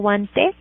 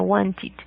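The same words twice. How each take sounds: First: The ending is said with an 'ed' sound. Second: The ending is said with an 'id' sound. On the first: The speaker calls it wrong. "no digo wanted con e" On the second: The speaker calls it right. "sino wanted"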